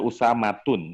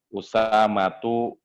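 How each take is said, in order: First: The name ends with an added n sound. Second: The name ends on a vowel without n. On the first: The speaker calls it wrong. "dia nggak boleh dibaca Usamatun" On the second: The speaker calls it right. "Makanya kita baca Usamatu"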